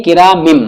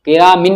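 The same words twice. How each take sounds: First: "किरामिम" closing on a hummed m; n changed to m. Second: Said in the usual way. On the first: Shown as a demonstration. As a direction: end "किरामिम" on m, lips closed. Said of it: "किरामिन नहीं". ("किरामिम" के अंत में मीम) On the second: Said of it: "नहीं".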